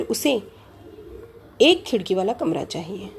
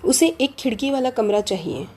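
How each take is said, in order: First: Long pause before एक, which is set apart; stress on एक. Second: Said in the usual way. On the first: Shown as a demonstration. Teacher giving another meaning by stress, एक stressed after a pause. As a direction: wait after उसे, then lean on एक. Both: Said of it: "एक पे अगर हमने बलाघात किया".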